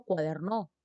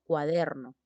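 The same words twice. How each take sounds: First: "cuaderno" stressed on the last syllable, cua-der-NO; mis-stressed "cuaderno", rising to cuader-NÓ; wrong final stress. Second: "cuaderno" stressed on the middle syllable, cua-DER-no; "cuaderno" as cua-DER-no, falling at the end; correct middle-syllable stress. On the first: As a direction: throw the weight onto NO in "cuaderno", ending up. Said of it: "tampoco digo cuaderno". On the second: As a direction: put the weight on DER in "cuaderno", then fall. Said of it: "digo cuaderno". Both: Shown as a demonstration.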